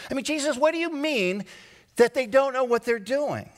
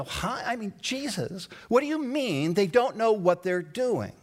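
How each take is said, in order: First: Much higher, fast, incredulous cry to Jesus; higher, exasperated questioning; exasperated plea. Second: Puzzled. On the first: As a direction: plead in disbelief. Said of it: "I stop and I go". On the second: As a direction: ask it as if truly baffled. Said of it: "And I take that in and I stop and I go". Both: Pretend.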